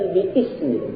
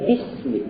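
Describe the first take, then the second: First: The vowel of ismi is sounded separately after bi. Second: The syllables run together with no separate vowel. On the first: The speaker calls it wrong. "bukan bi-ismi" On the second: The speaker calls it right. "tapi bismi"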